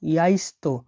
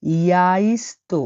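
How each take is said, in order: First: Said in the usual way. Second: ইয়াইস্তো drawn out slowly; slow model word. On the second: Shown as a demonstration. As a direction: stretch ইয়াইস্তো for learners. (ধীরে ইয়াইস্তো উচ্চারণ) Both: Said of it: "ডিমকে রাশিয়ানে বলা হয় ইয়াস্তো".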